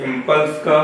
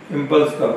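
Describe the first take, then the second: No difference in how they are said.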